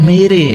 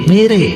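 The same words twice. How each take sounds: Both takes have the same delivery.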